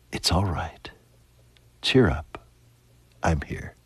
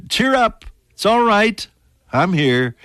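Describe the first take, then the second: First: Soft and hushed, dropping to near whisper. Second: Fervent comfort. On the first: Jesus whispering comfort into a troubled heart, hushed. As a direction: breathe the words gently like a secret comfort. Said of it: "let him whisper to you". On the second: Preacher voicing Jesus to the congregation, fervent and ringing. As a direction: proclaim it like a joyful call across the room. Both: Acted.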